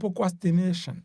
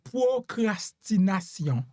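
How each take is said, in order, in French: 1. Le mot est prononcé avec des sons anglais. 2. Le mot est prononcé avec des sons français. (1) "en anglais on t'a prononcé" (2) "en français"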